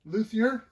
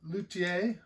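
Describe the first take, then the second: First: The word has a casual American pronunciation. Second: The word has a more careful non-American pronunciation. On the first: The speaker calls it wrong. "as we lazy Americans pronounce it" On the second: The speaker calls it right. "as it's probably most properly pronounced"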